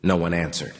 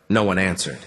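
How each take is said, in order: Both takes have the same delivery.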